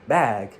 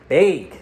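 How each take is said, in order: First: The vowel is said in a standard accent. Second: The vowel is said in a Wisconsin accent. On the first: "he pronounces the word bag" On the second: "I have a friend in Wisconsin, and he pronounces the word bag as bag"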